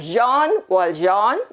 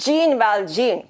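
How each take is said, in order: First: The name is said with a soft French zh sound. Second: The name is said as English spelling suggests. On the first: "this is a French name. In France, J E A N is pronounced as Jean" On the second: "it looks like Jean Valjean"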